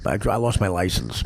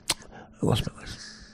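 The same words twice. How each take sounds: First: Said in the usual way. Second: Breathy whispered repeat, slow. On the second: Retold or imitated. Telling the story of his lost license, in a slow whisper. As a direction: let the line die to a slow whisper. Repeats the line, voice dropping away.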